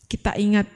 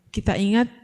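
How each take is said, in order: The two takes are said the same way.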